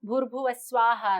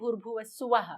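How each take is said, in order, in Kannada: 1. ಕೊನೆಯ ಪದ 'sv' ಸಂಯುಕ್ತ ಅಕ್ಷರದಿಂದ ಶುರುವಾಗುತ್ತೆ. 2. ಕೊನೆಯ ಪದದಲ್ಲಿ s ಮತ್ತು v ನಡುವೆ 'u' ಇದೆ. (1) "ಭೂರ್ಭುವ ಸ್ವಾಹ ಅಂತ ಬರುತ್ತೆ ಋಗ್ವೇದದಲ್ಲಿ" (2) "ಯಜುರ್ವೇದದಲ್ಲಿ ಭೂರ್ಭುವ ಸುವಹ"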